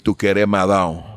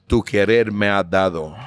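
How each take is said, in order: First: The final word is clipped short, Andalusian-style. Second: The final word is pronounced fully.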